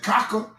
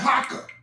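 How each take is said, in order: First: The word begins with a hard K sound. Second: The word begins with a breathy H sound. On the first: The speaker calls it wrong. "You don't pronounce it Kaka" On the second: The speaker calls it right. "you pronounce it Haka"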